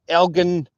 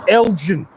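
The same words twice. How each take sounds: First: It is said with a Scottish pronunciation. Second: It is said with an American pronunciation. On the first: This is how locals say the name. The speaker calls it right. "We say" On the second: This is how people overseas say the name. The speaker calls it wrong. "for people across the pond"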